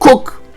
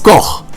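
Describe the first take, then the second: First: The name is said to rhyme with English cook. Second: The name is said with a German guttural ending. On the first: The speaker calls it wrong. "or Cook" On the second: The speaker calls it right. "the correct pronunciation of Koch is Koch"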